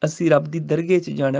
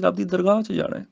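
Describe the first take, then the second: First: ਦਰਗਾਹ said as dargeh, the wrong way; ਦਰਗਾਹ with the final vowel clipped short; wrong dargah. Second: ਦਰਗਾਹ with the h sounded at the end; Persian dargah. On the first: Teacher shows students the wrong ਦਰਗਾਹ. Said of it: "ਉਹ ਇਹ ਨਹੀਂ ਕਹਿੰਦੇ". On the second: Teacher shows students the proper Persian ਦਰਗਾਹ. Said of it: "ਉਹ ਕਹਿੰਦੇ". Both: Shown as a demonstration.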